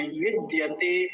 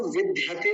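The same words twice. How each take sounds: First: विद्यते slowly as vid-ya-tay; correct dya. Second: विद्यते quickly as vid-dhya-te; mistaken dhya. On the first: Teacher correcting the word, slow demo. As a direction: keep the d of विद्यते unaspirated, unhurried. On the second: Teacher showing what not to say, quick wrong demo. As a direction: put an aspirated dh in विद्यते. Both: Shown as a demonstration. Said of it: "इसको विद्यते नहीं बोलेंगे".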